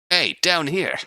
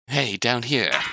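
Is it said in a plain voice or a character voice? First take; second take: character; plain. First: It is said in a put-on character voice. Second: It is said in his plain reading voice.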